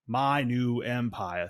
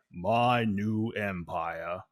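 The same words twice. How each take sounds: First: It is said in a lighter, ordinary voice. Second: It is said in a deep, slow, measured voice. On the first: It imitates the younger character's delivery. "instead of Anakin saying" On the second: It imitates the older masked character's delivery. "think about Vader, ... that's how he would say it"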